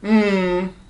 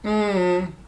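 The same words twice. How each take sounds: First: The hum's pitch falls from high to low. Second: The hum's pitch falls from high to low.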